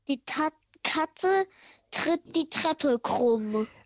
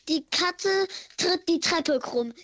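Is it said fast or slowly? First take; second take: slowly; fast. First: It is said slowly. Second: It is said fast.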